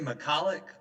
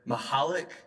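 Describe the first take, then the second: First: The name is said in the anglicized family way. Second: The name is said in the traditional way. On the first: This is how the family usually says it. The speaker calls it wrong. "we say McCulloch" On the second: This is the culturally appropriate form of the name. The speaker calls it right. "the culturally appropriate way to pronounce it"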